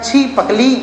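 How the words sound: The word breaks after the first syllable 'chhi'. The speaker calls it wrong. "यहाँ पर तोड़ देगा तो बनेगा छी पकली"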